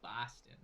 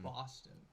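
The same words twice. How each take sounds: First: The O vowel is plain, without a deep sound. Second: The O vowel is deep and drawn out. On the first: "when I say Boston, I say it like Boston" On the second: "I don't use a deep O"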